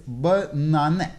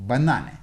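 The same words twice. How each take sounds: First: Banane split lightly as buh, NAH-neh; syllables shown apart. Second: Said in the usual way. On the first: Shown as a demonstration. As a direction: set the first syllable of banane apart, then stress NAH. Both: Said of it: "So the word is".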